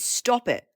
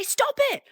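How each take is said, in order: First: Said in the usual way. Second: "Stop it" squealed much higher, falling; mock British squeal. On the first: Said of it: "The last one is". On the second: Mimicking Brits saying "Stop it", squealed much higher. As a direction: squeak "Stop it" high and drop it. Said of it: "But they say".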